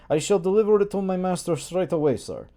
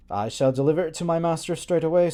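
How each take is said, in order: First: Put-on servant's heavy Slavic accent. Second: Said in the usual way. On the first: Servant answers the master in thick Slavic accent. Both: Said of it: "I gave him an accent".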